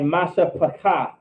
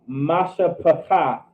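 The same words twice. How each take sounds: First: Said in the usual way. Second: "masha pakath" drawn out slowly; slow, measured teaching repeat of "masha pakath"; slow pronunciation demo. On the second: Shown as a demonstration. Teacher repeats Hebrew word slowly.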